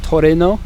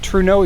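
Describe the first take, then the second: First: The name is said in a Japanese-style way. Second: The name is said in an anglicized way. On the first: "the Japanese pronunciation is Toreno" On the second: "I always pronounce it Truno"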